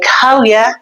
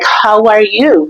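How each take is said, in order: First: It is shortened and quick, in an Irish way. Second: It is said in full, every word clearly.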